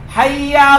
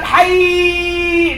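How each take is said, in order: First: The doubled y sound is held briefly. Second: The doubled y sound is held very long. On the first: The speaker calls it right. "There's one with 1 shadda. And that is equal to 2 sounds" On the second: The speaker calls it wrong. "There's no hayy in the Arabic language with 16 shadda on it"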